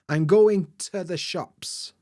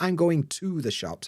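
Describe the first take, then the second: First: The word 'to' is reduced and weak. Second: The word 'to' is full and strong. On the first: The speaker calls it right. "For example" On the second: The speaker calls it wrong.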